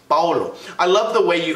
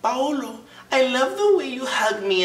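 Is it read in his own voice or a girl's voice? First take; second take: own voice; girl's voice. First: It is read in his own normal voice. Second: It is read in a put-on girl's voice.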